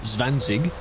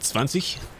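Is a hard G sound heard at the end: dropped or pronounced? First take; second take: pronounced; dropped. First: The word ends with a hard G sound. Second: The word ends without a hard G sound. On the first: The speaker calls it wrong. "Not, not zwanzig" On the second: The speaker calls it right. "Any of them ending in G, you don't say the G"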